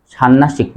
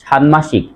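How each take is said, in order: First: ষান্মাসিক as "shannashik", no m; wrong pronunciation. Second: ষান্মাসিক as "shanmashik"; correct pronunciation. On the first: Teacher rules out the error, nn replacing nm in ষান্মাসিক. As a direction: double the n in ষান্মাসিক. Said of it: "ষান্মাসিক নয়". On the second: Teacher sums up the rule, clear m in ষান্মাসিক. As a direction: sound n then m in ষান্মাসিক. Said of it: "এখন থেকে উচ্চারণ করব". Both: Shown as a demonstration.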